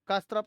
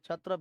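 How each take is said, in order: First: The word starts with a clear k sound. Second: The word starts without a k sound. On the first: The speaker calls it wrong. "तो कस्त्रप नहीं पढ़ेंगे" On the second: The speaker calls it right. "क्षत्रप ही है वो, के silent है"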